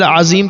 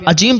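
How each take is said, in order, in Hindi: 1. बीच का व्यंजन एक गूंजती हुई z की आवाज़ है। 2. बीच का व्यंजन j की आवाज़ है। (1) "अज़ीम का अगर ज़ा नहीं निकाल पाता है" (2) "ये माना तब्दील हो जाएगा"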